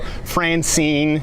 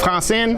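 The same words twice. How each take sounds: First: The name is said with an English accent. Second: The name is said with a French accent. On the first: Listeners can understand the name. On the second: Listeners do not understand the name.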